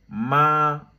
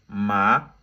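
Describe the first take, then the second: First: The pitch stays level and flat throughout. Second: The pitch rises from low to high. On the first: "avec le premier ton, tout droit" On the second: "du bas vers le haut"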